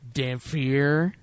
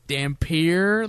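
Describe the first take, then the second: First: The middle consonant is an f sound. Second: The middle consonant is a p sound. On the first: This is how the film's characters say it. The speaker calls it wrong. "every time they say it in the movie, they say Dhampir" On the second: This is how the word should be said. The speaker calls it right. "No, it's Dhampir. Like, there's no fucking P H in there at all"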